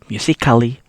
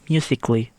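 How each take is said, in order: First: The A in the ending is sounded. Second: The A in the ending is silent. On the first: The speaker calls it wrong. "You not read it like" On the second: The speaker calls it right. "the letter A is silent"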